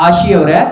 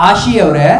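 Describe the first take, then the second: Both takes have the same delivery.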